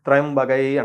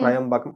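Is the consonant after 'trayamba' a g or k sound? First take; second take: g; k. First: The word is said with a g sound. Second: The word is said with a k sound. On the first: The speaker calls it right. "ఇది త్రయంబగై అంటారు దాన్ని" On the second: The speaker calls it wrong. "ఇది త్రయంబకం గాదండి"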